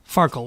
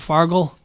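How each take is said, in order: First: The middle consonant is a K sound. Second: The middle consonant is a G sound. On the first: This is the game's official name. "Farkle with a K" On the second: This is the speaker's personal habit. "I pronounce it Fargle"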